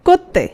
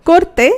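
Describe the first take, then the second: The two takes are said the same way.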